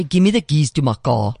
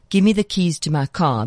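First: "car" rounded to "caw", "my" flattened to "mah"; overdone South African vowels. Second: Said in the usual way. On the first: Shown as a demonstration. Coach mimicking actors' put-on South African accent, "car" said as "caw". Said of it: "they say". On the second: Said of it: "instead of saying".

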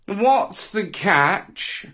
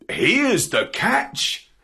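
First: High, drawn-out cat character. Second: Higher, slow presenting line, lifted at the end; dog's reply. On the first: Cat asks dog about the fish, slow cat voice. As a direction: stretch it out slowly like a wary cat. Cat questions the dog's gift. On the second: Dog answers cat with the fish, slow lilting reply. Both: Acted.

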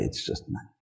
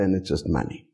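First: Whispered aside. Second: Said in the usual way. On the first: Real, not acted. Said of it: "repeat of and it's just money". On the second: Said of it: "it's just money (repeated)".

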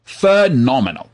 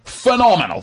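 First: Drawn-out praise. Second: High excited praise. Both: Real, not acted. Praising the Australian accent.

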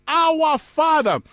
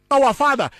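First: "our" stressed, high and slow; slow emphasis. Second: Said in the usual way. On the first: Shown as a demonstration. Preacher stressing the word to the congregation, slow and high. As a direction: lean slowly on "our Father". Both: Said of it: "The word Father there".

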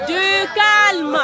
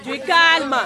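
First: Higher, louder insistent hush; louder call for calm. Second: Firm raised call for calm. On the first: (plus fort, pour calmer la classe) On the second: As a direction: settle the class down firmly. Teacher calms laughing class. (calme, d'une voix ferme) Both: Acted.

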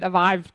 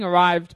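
First: "arrived" with a V in place of the R; German-style R as V. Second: Said in the usual way. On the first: Retold or imitated. Host quoting a German film character, "arrived" with V for R. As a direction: say "arrived" as "avived". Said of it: "'cause he's German". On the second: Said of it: "but he said arrived 'cause he's German".

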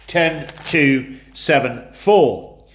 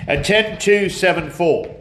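First: Each number spaced out slowly; slow and deliberate. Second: Said in the usual way. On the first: Shown as a demonstration. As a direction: spell out the numbers slowly for clarity. Repeats combination for clarity.

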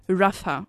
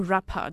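First: Rapha with the PH as an F, RAF-ah. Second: Rapha with the PH as a hard P, RAP-ah. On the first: Quiz host giving a name of God, Rapha said with an F. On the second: Quiz host giving the other option, Rapha said with a P. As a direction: say Rapha with a P, not an F. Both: Shown as a demonstration. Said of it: "how you want to pronounce that P H".

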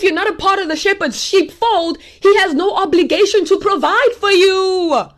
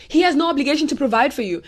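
First: Full-force preacher's declaration; forceful preaching. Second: Said in the usual way. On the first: Real, not acted. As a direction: drive the warning home.

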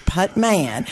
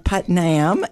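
First: "Putman", both syllables clearly sounded, ending in MAN; careful name pronunciation. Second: "Putnam", slow and careful, ending in NAM; careful name pronunciation. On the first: Host telling guest her own last name, careful pronunciation. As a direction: say "Putman" with M before the final AN. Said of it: "have to really work, Bill, on saying that". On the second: Host working on saying the coalition's name, careful pronunciation. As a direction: say "Putnam" with N before the final AM. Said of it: "I have to really work, Bill, on saying that". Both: Shown as a demonstration.

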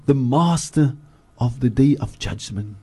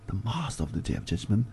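First: Said in the usual way. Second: Much softer, almost to himself; a hushed, reflective repeat of the line; soft echo. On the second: Shown as a demonstration. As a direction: let the repeat fall away quietly. Translation repeated, second softer.

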